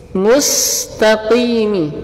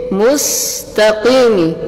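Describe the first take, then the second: No difference in how they are said.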